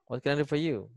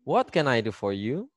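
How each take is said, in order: First: It is said quickly and directly in one go. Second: It is said slowly with careful, textbook intonation. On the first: This is how people talk in daily life. "Langsung gitu aja" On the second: This follows the formal rule. "Intonasi yang benar gimana nih ya? Sesuai kaidah yang bahasa Inggris seharusnya"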